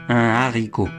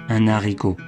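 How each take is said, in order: Both takes have the same delivery.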